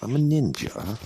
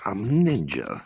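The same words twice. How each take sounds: First: Put-on Jamaican accent. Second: Mock British accent, raised pitch. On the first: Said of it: "Jamaican ... voice". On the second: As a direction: say it like a cartoon Brit. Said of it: "So I got my Brit".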